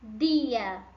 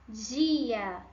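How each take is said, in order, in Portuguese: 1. O d antes do i tem o som espanhol. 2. O d antes do i tem o som português. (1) "Em espanhol" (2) "Como eu falaria essas palavras em português?"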